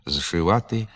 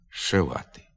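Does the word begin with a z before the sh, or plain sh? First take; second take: z before sh; plain sh. First: A z sound comes before the sh. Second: The word begins with a plain sh. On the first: "пишеться" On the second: "а вимовляється"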